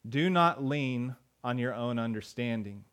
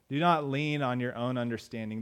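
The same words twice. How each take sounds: First: "not" in "Do not lean" drawn out and leaned on, the whole verse read slowly; slow scripture reading. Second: Said in the usual way. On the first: Shown as a demonstration. Pastor reads the verse slowly to the congregation, weighing "not".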